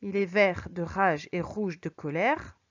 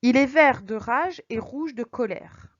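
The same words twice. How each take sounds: First: Slower take where "vert", "rage" and "rouge" are lower and leaned on; R sounds stressed. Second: "vert", "rage", "rouge" said slowly, R sounds leaned on; slow, angry-tinged reading of "vert de rage"; rolled R alliteration. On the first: Teacher repeats the example to make the R heard. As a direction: linger on every R of "rouge de colère". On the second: Teacher reads the example slowly to show the R. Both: Shown as a demonstration. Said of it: "le son répété que l'on entend".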